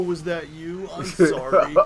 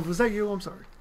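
First: The apology sounds sarcastic and mocking. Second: The apology sounds sincere and genuine. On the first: The apology is not meant at all. "like a sarcastic, like, you know, 90s douchebag" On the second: The apology is meant honestly. "I'm not being facetious"

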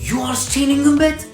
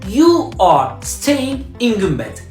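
First: The voice rises at the end. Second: The voice falls at the end. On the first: It is a question. "tonlama yaparak soruya çevirir" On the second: It is a plain statement. "Sen Gümbet'te kalıyorsun"

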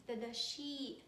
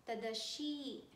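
The two takes are said the same way.

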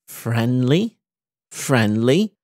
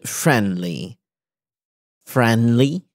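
The two takes are said the same way.

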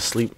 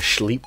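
First: The word begins with a plain s sound. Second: The word begins with a sh sound. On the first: "Instead of saying like I'm gonna go to sleep" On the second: "I'm trying to add S-C-H"

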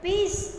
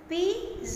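First: The word ends with a hissing s sound. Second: The word ends with a buzzing z sound. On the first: The speaker calls it wrong. "અહીંયા છાપવામાં ભૂલ છે" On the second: The speaker calls it right. "અહીંયા સ તો જ આવે"

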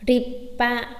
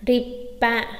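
The two takes are said the same way.

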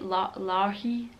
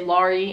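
First: The nickname is said the German way. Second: The nickname is said the American way. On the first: The speaker calls it right. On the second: The speaker calls it wrong.

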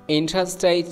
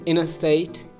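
First: The T after the N is clearly pronounced. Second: The T after the N is dropped.

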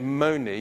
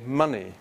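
First: The first vowel is a long 'oh' sound. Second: The first vowel is a short 'uh' sound. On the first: The speaker calls it wrong. "if you put an M at the beginning, you wouldn't say money" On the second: The speaker calls it right. "you'd say money"

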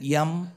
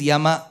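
First: The word ends on the consonant, without a vowel. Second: The word ends with a full final vowel. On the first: "If you know colonial English, then that Ram, that Yam" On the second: "And for me, it is Yama"

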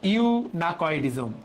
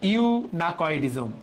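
First: The middle consonant is a k sound. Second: The middle consonant is a k sound.

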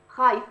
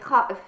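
First: The middle consonant is a y sound. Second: The middle consonant is a glottal stop. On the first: This is the Tunisian dialect form. "إبدال الهمزة ياء" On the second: This is the Standard Arabic form. "أي خائف"

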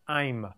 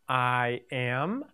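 First: It is said as one contracted word, 'I'm'. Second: It is said as two full words, 'I am'. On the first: "I'm is a contraction for I am" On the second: "Now say the long and short versions next to each other"

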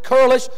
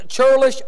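First: The word begins with a k sound. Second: The word begins with a ch sound. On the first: This is how the speaker personally says it. "I pronounce it curlish" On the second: This is how other people say it. "some pronounce this churlish"

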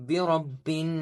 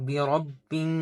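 Both takes have the same delivery.

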